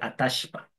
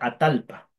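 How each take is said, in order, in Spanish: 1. La consonante del medio es un sonido SH. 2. La consonante del medio es un sonido L. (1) "pero en el sur va a ser Atashpa" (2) "En el norte va a ser Atalpa"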